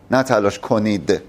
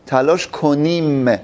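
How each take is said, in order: First: Said in the usual way. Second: تلاش کنیم said slowly, ending firm; drawn-out تلاش کنیم; stress on we. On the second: Shown as a demonstration. Teacher to class: slow, emphatic تلاش کنیم. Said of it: "ببین، ما".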